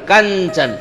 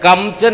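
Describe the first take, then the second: First: The nasal blends into the following ch sound. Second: The nasal is a clear separate m sound. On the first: The speaker calls it right. "कांचन इ आला तिथं" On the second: The speaker calls it wrong. "असं नाही म्हणणार"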